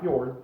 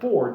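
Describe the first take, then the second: First: The name starts with an fy sound. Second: The name starts with a plain f sound. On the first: The speaker calls it wrong. "not Fjord" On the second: The speaker calls it right. "it's Ford, not Fjord"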